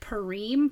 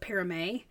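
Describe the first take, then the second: First: The word is said with an English-style pronunciation. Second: The word is said with a French pronunciation. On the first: The speaker calls it wrong. "I pronounced it Parime" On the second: The speaker calls it right. "it's actually a French word, and you pronounce it Parame"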